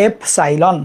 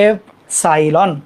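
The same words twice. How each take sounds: First: Said in the usual way. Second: এপসাইলন drawn out slowly, every syllable clear; slow clear pronunciation. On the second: Shown as a demonstration. (ধীরে স্পষ্ট উচ্চারণ) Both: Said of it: "সাই লিখে ফেলো".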